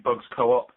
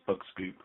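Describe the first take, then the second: First: The name is split as 'Bugs' plus 'co-op'. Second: The name is split as 'Bug' plus 'scoop'. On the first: The speaker calls it wrong. "some people call me Bugs Co-op" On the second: The speaker calls it right. "it's Bug Scoop"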